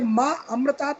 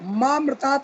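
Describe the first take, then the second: First: It is split into two separate words. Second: It is run together as one word. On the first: It asks to be given immortality. The speaker calls it right. "इसलिए माँ अमृतात् बोलिए कि मुझे अमृत दीजिए" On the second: It asks to be given death. The speaker calls it wrong. "मामृतात् बोलते हैं, मामृतात् बोलने वाले लोगों के लिए वो मृत्यु को निमंत्रण दे रहे हैं"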